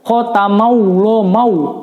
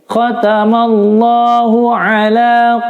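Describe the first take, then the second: First: A w sound is inserted before 'ala'. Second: No w sound is inserted before 'ala'. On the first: The speaker calls it wrong. "itu tidak betul" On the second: The speaker calls it right. "bukan mau, tapi mallah"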